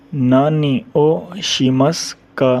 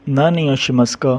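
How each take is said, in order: First: नानी ओ Sheamus का spelled out slowly, syllable by syllable; slow demo. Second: Said in the usual way. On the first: Shown as a demonstration. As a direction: say नानी ओ Sheamus का slowly so students catch each part. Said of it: "teacher models question slowly". (नानी ओ Sheamus का धीरे-धीरे, हर शब्द अलग) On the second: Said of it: "repeat at normal pace".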